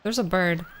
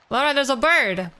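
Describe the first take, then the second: First: Said in the usual way. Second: Raised excited call to Laura. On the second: Real, not acted. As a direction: call out to someone across the room. Calling to Laura.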